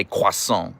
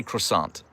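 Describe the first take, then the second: First: "croissant" as kwah-SOHN; "croissant" with a nasal French ending; French pronunciation. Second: "croissant" as kruh-SAHNT; "croissant" anglicised, ending in a clear t; American pronunciation. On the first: Retold or imitated. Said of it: "She has to say croissant". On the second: Shown as a demonstration. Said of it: "She can't say croissant".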